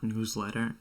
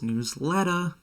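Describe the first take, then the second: First: The word ends with a plain 'er' sound. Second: The word ends with an 'ah' sound. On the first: "it's not newsletter" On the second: "the Boston accent is um, it's like pronouncing your E Rs with A H"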